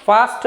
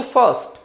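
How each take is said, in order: First: फास्ट with a long आ vowel; फास्ट said with a broad aa; wrong pronunciation. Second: फर्स्ट with a short schwa, fəst; correct pronunciation. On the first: Teacher showing students the wrong फास्ट. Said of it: "फास्ट नहीं". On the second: Teacher giving students the right फर्स्ट. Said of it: "फास्ट नहीं, फर्स्ट". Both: Shown as a demonstration.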